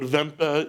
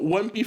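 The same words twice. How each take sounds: First: The name is pronounced the German way. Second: The name is pronounced with an American accent. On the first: "is the proper way to say it" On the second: "for the Americans"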